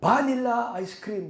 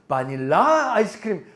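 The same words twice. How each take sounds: First: The stress is on the first syllable. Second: The stress is on the last syllable. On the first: "액센트가 앞에 있어가지고" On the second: "끝에 있나 보다"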